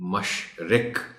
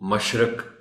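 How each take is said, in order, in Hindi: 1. दूसरे अक्षर में स्वर 'i' है। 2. दूसरे अक्षर में स्वर 'a' है। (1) "इसका दुरुस्त तलफ़्फ़ुज़ बताना है" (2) "कई एक बच्चे इसको मशरक भी पढ़ पढ़ और बोल जाते हैं"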